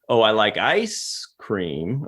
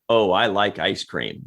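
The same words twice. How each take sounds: First: It is delivered in a weird, unusual way. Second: It is delivered in an ordinary way.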